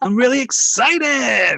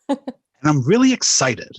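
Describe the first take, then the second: First: It sounds lively, with exclamation-like energy. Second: It sounds flat, ending like a statement.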